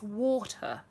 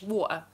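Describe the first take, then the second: First: It is said in a posh British accent. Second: It is said in a lower-class British accent. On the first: "Water is the Queen's English, like this" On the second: "a bit more grimy, a bit more lower class"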